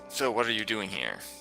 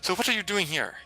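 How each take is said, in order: First: It is said in the speaker's ordinary voice. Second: It is said in a put-on woman's voice.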